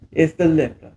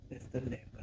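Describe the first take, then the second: First: Said in the usual way. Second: Much softer, almost whispered; a sheepish whisper to herself; muffled confession; muttered aside. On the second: Acted. Hushed repeat as a private aside.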